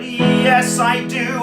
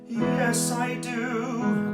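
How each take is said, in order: First: The voice is loud, full and muscular. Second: The voice is soft, light and sobbing. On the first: "the belt, which is really muscular, probably the loudest" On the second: "soft quality to make a nice yawning sound, nice and light, still but sobby"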